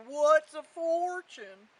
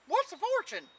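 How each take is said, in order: First: Lightly voiced cow, loud and slow; slow, loud question from a puzzled cow; cow character. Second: High, loud hound dog voice; old hound character. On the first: Cow answers Jack in story. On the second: Acted. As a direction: ask it in a raised dog voice. Hound answers Jack in story.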